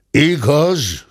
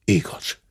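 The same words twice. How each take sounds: First: Igaz higher and louder, falling; grumbled aloud. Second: Soft whispered mumble of Igaz; grumbled. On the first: The squire conceding to the cub, louder grumble. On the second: The squire admitting to the cub, whispered grumble. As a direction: mutter Igaz under breath. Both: A narrator's reading. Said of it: "dörmögte a ténsúr".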